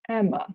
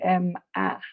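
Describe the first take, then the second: First: The final vowel is a short, weak uh. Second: The final vowel is a full, clear vowel. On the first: The speaker calls it right. "it's a uh, Emma" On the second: The speaker calls it wrong. "I don't say M-A"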